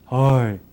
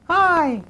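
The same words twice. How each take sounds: First: The voice is pitched very low. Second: The voice is pitched very high. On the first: "or it could be low" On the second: "It could be high, way up there"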